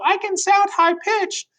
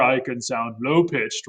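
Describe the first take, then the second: First: Very high, squeaky demo voice; high-pitched. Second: Deliberately lowered demo voice; low-pitched. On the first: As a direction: push the voice way up high. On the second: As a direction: drop the voice down low. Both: Shown as a demonstration.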